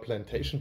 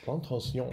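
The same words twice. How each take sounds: First: The ending is said without French nasal vowels. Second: The ending is said with French nasal vowels. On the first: The speaker calls it wrong. "Wir sagen ja immer Plantation, weil wir ja solche Anfänger sind" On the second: The speaker calls it right. "Also man braucht ein bisschen Schnupfen"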